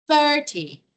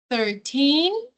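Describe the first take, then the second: First: Thirty with a strong thir and a falling end; stress on thir. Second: Put-on thirteen with a rising, stressed teen. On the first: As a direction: hit the front of thirty. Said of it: "a primeira parte da palavra é a mais forte". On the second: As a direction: punch the end of thirteen. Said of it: "a pronúncia do teen é bem pronunciada". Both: Shown as a demonstration.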